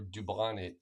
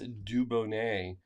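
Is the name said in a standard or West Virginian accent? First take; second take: West Virginian; standard. First: The name is said with a West Virginian accent. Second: The name is said with a standard pronunciation.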